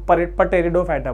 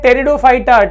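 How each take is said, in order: First: The word starts with a sounded P before T. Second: The word starts with a plain T sound. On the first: The speaker calls it wrong. "नहीं तो बोलोगे तुम" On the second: The speaker calls it right. "पी silent है यहां पर"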